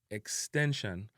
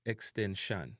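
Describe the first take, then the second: First: EXTENSION ending in a weak "shun"; English-style "ex-ten-shun"; English pronunciation. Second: EXTENSION ending in a full "shan"; Jamaican pronunciation. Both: Shown as a demonstration. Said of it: "replaced with a an sound".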